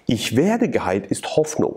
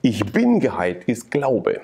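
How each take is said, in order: First: Slow, leaning hard on "werde"; stress on werde. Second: Slow, punching "bin" as the key word; stress on bin. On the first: Testifying to the interviewer, stressing werde. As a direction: land the weight on "werde", the word for hope. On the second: Contrasting faith with hope, stressing bin. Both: Shown as a demonstration.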